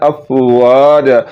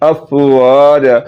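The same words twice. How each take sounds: First: The vowel after the w is long. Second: The same.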